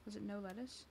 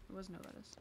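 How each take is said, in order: First: "Was it no lettuce?" softly, rising at the end; quietly double-check "no lettuce" as a question; unsure quiet question on "no lettuce", lifting at the end. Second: "It was no lettuce." very soft, as a statement; hushed self-answer on "It was no lettuce". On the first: Checks order, then answers herself. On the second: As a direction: quietly confirm "no lettuce" to yourself. Answers own question. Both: Real, not acted.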